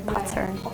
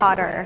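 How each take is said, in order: First: The middle consonant is a clear T. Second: The middle consonant sounds like a soft D. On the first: "But you said the T" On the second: "the rest of us did like the D sound more"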